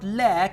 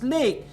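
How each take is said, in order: First: The vowel is short, like in 'lack'. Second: The vowel is long, like in 'lake'. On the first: The speaker calls it wrong. "a student pronounced the word lack" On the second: The speaker calls it right. "it's lake"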